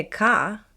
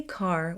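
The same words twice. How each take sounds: First: Ka, dropping the R, open ah ending; non-rhotic car. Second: Car with a clear, hard R at the end; rhotic car. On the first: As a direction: say car as ka with no R at all. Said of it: "with no R". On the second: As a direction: say car, sounding the final R fully. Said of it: "If you say car with a clear R". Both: Shown as a demonstration.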